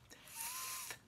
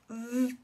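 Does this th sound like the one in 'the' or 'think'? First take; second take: think; the. First: The th sounds like the one in 'think'. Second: The th sounds like the one in 'the'. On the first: "sometimes it sounds like th, like think" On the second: "sometimes sounds like th, like in the and that and there"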